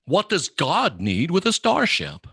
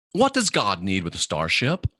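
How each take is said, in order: First: Slow, deliberate Kirk line, higher; a light imitation of Kirk, slow and pointed; quoting Kirk. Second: Said in the usual way. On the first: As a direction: drag out each word like Captain Kirk. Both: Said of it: "They're talking about Star Trek".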